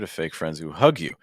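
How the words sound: Fake is unstressed; only hug carries stress. "I would consider removing the stress on fake"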